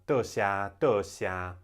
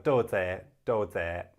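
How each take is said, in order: First: It is spoken in Taiwanese pronunciation. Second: It is spoken in Cantonese pronunciation. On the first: "in uh, Taiwanese is" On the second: "sounds actually a bit similar in Cantonese"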